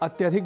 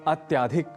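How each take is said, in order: First: The vowel before 'dhik' is short. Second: A long 'aa' vowel comes before 'dhik'. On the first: The speaker calls it right. "जैसे अत्यधिक बोलना हो" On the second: The speaker calls it wrong. "हम कहते हैं अत्याधिक, ... जबकि ऐसा नहीं है"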